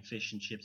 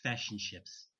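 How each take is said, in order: First: "fish and chips" with short centralised New Zealand i; New Zealand vowels. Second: "fish and chips" with the vowel in "fish" shifted toward "fash"; mimicked accent vowel. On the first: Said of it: "instead of saying fish and chips". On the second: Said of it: "they'll say fish and chips". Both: Shown as a demonstration.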